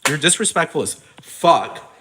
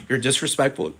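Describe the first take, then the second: First: Higher and louder, leaning on disrespectful; louder repeat. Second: Said in the usual way. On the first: Real, not acted. Ranting at Simon Cowell, louder and angrier. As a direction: punch it harder the second time.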